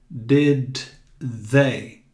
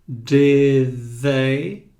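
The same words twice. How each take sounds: First: The d and th are not blended together. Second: The final d runs straight into the th. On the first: The speaker calls it wrong. "Você não vai dizer did they" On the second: The speaker calls it right. "você diz de e já coloca a língua para fora entre os dentes"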